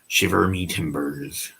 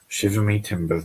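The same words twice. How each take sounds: First: It is said in a pirate voice. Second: It is said in a normal voice.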